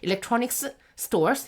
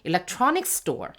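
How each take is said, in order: First: The words are separated with two s sounds. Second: The words link with a single s sound. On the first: The speaker calls it wrong. "이렇게 하면 힘들잖아" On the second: The speaker calls it right. "연음을 해서 얘를 그냥 없는 것처럼"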